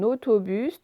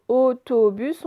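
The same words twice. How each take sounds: First: Said in the usual way. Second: "autobus" slowed, both O sounds drawn out; both O sounds stressed. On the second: Shown as a demonstration. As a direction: stretch the "au" and "to" of "autobus". (« autobus » lent, les deux O bien détachés) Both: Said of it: "on l'entend deux fois".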